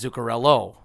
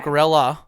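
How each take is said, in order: First: The name ends with an 'oh' vowel. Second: The name ends with an 'ah' vowel. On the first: The speaker calls it right. "it's Zuccarello. It's with an O" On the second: The speaker calls it wrong. "It's not"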